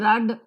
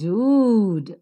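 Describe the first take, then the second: First: The vowel is short. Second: The vowel is long. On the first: The speaker calls it wrong. "It is not rud" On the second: The speaker calls it right. "the longer pronunciation"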